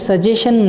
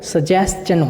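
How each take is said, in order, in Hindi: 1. बीच की ध्वनि सिर्फ़ 'sh' है। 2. बीच की ध्वनि पहले 's' और फिर 'ch' है। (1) "सजेशन नहीं होता" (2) "वो सजेस्चन होता है"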